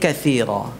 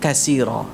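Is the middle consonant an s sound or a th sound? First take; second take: th sound; s sound. First: The middle consonant is a th sound. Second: The middle consonant is an s sound. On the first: The speaker calls it right. "Jadi kathira" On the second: The speaker calls it wrong. "bukan kasira"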